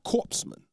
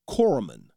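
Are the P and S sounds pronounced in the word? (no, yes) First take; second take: yes; no. First: The p and s sounds are pronounced. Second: The p and s sounds are silent. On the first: The speaker calls it wrong. "not C-O-R-P-S-E" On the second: The speaker calls it right. "the P and the S is silent and it's just C-O-R"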